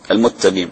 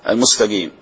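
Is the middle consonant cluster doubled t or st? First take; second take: doubled t; st. First: The s becomes t, giving a doubled t. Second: The s is pronounced before the t. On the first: The speaker calls it wrong. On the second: The speaker calls it right.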